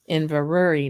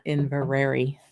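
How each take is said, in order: First: Inverary said carefully, falling; Inverary with a careful falling finish; correct Inverary. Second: Inverary as the mistaken pronunciation; wrong Inverary. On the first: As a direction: say Inverary the right way. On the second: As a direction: say Inverary the way not to. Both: Shown as a demonstration. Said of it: "not Inverary".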